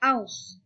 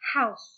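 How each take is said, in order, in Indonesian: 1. Kata ini langsung diawali dengan vokal. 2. Kata ini diawali bunyi h yang berdesah. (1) "tidak kita beri tekanan, maka hanya menjadi aus, begini ya" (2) "bunyi H itu bisa dihasilkan dengan cara memberikan sedikit tekanan pada celah pita suara"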